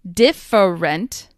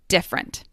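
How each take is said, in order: First: The unstressed middle vowel is clearly pronounced. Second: The unstressed middle vowel is dropped entirely. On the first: "I will emphasize them so you can hear them" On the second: "these syllables will often get dropped entirely"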